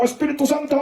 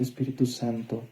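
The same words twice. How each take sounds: First: It is said loudly and abruptly. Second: It is said softly and gently. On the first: The speaker calls it wrong. "al Espíritu Santo no puedes ir a decir, ¡oh, Espíritu Santo! ¡Ah! No" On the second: The speaker calls it right. "le hablas suavito... En ese tono le hablas al Espíritu Santo"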